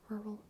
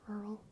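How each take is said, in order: Both takes have the same delivery.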